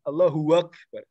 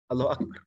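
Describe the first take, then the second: First: A w sound is inserted before akbar. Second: It is said plainly, single b, no added w. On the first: The speaker calls it wrong. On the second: The speaker calls it right.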